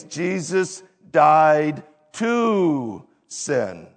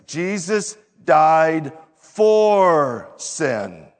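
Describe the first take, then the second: First: Slow, leaning on "to": Jesus died TO sin; stress on to. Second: Slow, leaning on "for": Jesus died FOR sin; stress on for. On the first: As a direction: hit "to" to set it against "for". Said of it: "We're not used to the phrase". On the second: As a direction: land the word "for" as the key word. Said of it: "We're used to the phrase". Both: Shown as a demonstration.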